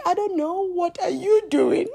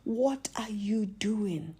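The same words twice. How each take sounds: First: High-pitched comeback, rising at the end; lively mock retort; own retort. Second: Lightly voiced man, quiet; man's question. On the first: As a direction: throw the question back at him, higher and louder. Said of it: "I'm like". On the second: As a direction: ask it softly, in your usual pitch. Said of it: "he's like".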